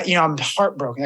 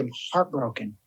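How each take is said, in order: First: Said in the usual way. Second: Much softer, sinking low into the word; quiet, heavy. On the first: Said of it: "How are you? I'm heartbroken". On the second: Shown as a demonstration. Yoga teacher shows the host how to say it, quiet and heavy. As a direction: let the heartbreak sit in a hushed voice. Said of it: "if we just said, like, Heartbroken".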